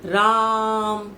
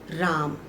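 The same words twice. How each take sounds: First: The vowel is stretched out very long. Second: The vowel is said at normal length. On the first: Someone is being called out to. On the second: The name is simply stated.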